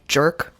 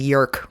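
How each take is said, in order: First: The name begins with a J sound. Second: The name begins with a Y sound. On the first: "with an American accent" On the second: "I guess it'd be Yerk"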